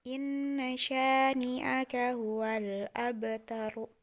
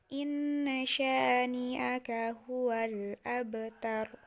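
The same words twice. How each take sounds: The two takes are said the same way.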